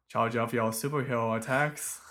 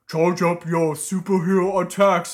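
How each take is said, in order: First: Homestar voice. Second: Loud, booming cartoon ogre. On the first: Shown as a demonstration. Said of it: "would be like". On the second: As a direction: bellow it like a dopey ogre. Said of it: "I was trying to do an ogre voice".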